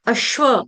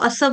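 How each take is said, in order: First: It is said with a doubled sh sound. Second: It is said with a plain s sound. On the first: The speaker calls it right. "श शरबत वाला, लेकिन आधा" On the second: The speaker calls it wrong. "ये गलत उच्चारण है। स नहीं आएगा"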